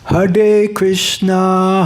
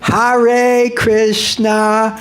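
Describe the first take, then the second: First: The r is tapped, sounding close to d. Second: The r sounds like an American English r. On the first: The speaker calls it right. "better pronounce it like a D" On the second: The speaker calls it wrong. "you sound like a New Yorker"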